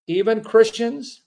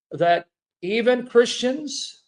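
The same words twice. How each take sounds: First: "even" stressed with a rising tune; "even" stressed, rising end. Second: Slow stress on "even". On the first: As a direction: repeat it leaning on "even", lifting the end. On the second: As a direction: lean hard on "even", slow and soft. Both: Shown as a demonstration.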